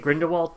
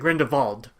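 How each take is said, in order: First: The name is said with English pronunciation. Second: The name is said with German pronunciation. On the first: "that's how you would say it in the English" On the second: "It's actually Grindelwald because he's he's German"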